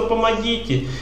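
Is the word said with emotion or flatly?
emotional. The word is said pleadingly, full of emotion. The person truly needs help. The speaker calls it right. "человек, который просит, он отдает свой жизненный воздух"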